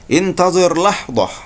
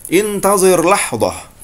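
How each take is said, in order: No difference in how they are said.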